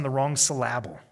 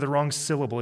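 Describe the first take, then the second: First: "syllable" said as suh-LAB-ul, stressed on the middle; mispronounced syllable. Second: Said in the usual way. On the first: Shown as a demonstration. Preacher's wordplay on misplaced emphasis, "syllable" mispronounced suh-LAB-ul. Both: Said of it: "I like to say it this way".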